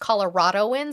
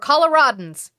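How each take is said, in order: First: The word is said with five syllables. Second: The word is said with four syllables. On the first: The speaker calls it wrong. "Don't fucking say it wrong" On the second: The speaker calls it right. "which is not what we are. We're Coloradans"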